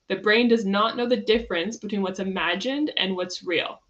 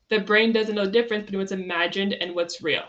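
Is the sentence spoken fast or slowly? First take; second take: slow; fast. First: The sentence is spoken slowly. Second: The sentence is spoken quickly. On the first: "Let me say that again" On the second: "I said it quickly"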